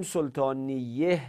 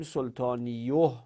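First: سلطانیه ending in "-iyeh"; kasra ending. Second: سلطانیوه ending in "-iyoh"; damma ending. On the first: Teacher shows students a rejected form of the word, kasra ending. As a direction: say سلطانیه with an e sound before the final h. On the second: Teacher shows students a rejected heavy form, damma ending. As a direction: say سلطانیوه with a rounded o before the final h. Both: Shown as a demonstration. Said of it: "به خاطر این گناه سنگین بودن".

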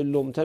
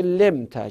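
First: لمته with an o in the first syllable; usual lomta form. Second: لمته with a short e in the first syllable; variant lemta form. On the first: Teacher cites the common form of the verb, لمته as "lomta". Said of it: "به جای لمته میگه لمته". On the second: Teacher cites another view marking the passive, لمته as "lemta". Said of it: "یه قولم اینجا هست". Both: Shown as a demonstration.

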